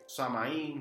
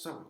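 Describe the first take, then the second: First: The word is said in its common everyday form. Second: The word is said in its native pronunciation. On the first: "si lo quieren llamar así" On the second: "la pronunciación es"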